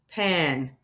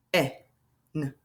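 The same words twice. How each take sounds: First: Said in the usual way. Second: P, E, N as separate letter sounds with long gaps; P-E-N broken into single phonics sounds; sounded out. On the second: Shown as a demonstration. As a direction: sound out P-E-N low, one sound at a time. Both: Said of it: "sound it out".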